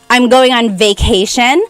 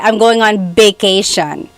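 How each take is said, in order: First: Vacation begins with a V sound. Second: Vacation begins with a B sound. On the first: "instead of saying" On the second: "a lot of people say"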